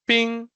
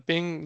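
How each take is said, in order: First: PING as a Chinese word, high and held; Mandarin ping. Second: "ping" said short, like the English word; everyday English "ping". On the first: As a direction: stretch "ping" on a high, sustained tone. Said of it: "it means ice in Chinese". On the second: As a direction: say "ping" untoned at usual pitch. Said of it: "which sounds like". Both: Shown as a demonstration.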